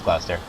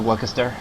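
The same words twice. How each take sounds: First: The name is said as two syllables, Gloster. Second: The name is said with a chester ending. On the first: The speaker calls it right. "I know how to pronounce it" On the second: The speaker calls it wrong. "At the time, I did think it was"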